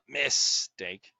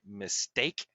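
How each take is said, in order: First: The stress is on the first syllable. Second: The stress is on the second syllable. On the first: The speaker calls it wrong. "not mistake" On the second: The speaker calls it right. "we say mistake"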